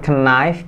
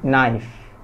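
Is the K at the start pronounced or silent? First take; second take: pronounced; silent. First: The K at the start is pronounced. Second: The K at the start is silent. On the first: The speaker calls it wrong. "Bukan knife" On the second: The speaker calls it right. "tapi knife"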